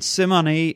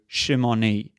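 First: "Simoni" said with a plain S at the start. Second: "Shimoni" opening on a sh sound; Hebrew pronunciation. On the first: Lecturer naming the tribe in England, "Simoni" with an s sound. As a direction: say "Simoni" opening on s, not sh. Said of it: "this tribe is known as the Simoni". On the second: Lecturer comparing tribe names, "Shimoni" with Hebrew sh. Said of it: "exactly the same as the Hebrew". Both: Shown as a demonstration.

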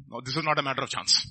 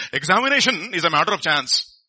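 First: Said in the usual way. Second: Imitated Telugu-accented pronouncement. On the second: Dad's old friend pronouncing on exams, imitated Telugu accent. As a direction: mimic an older man's Telugu accent, drawn on "Examination". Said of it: "in his own Telugu accent".

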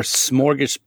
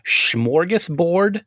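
First: "smorgas-" opening with a plain "sm", no H; smorgasbord with plain S. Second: "smorgasbord" slowly, opening with a "shm" sound. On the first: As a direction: start "smorgas-" on a clean S, then break off. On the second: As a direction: say "smorgasbord" as shmorgasbord, drawn out and questioning. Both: Shown as a demonstration. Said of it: "how do you actually say that".

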